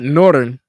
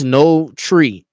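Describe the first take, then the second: First: The word ends without a final vowel sound. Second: The word ends with a clear 'tree' vowel sound. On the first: The speaker calls it wrong. "not northern" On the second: The speaker calls it right. "Like it's no tree"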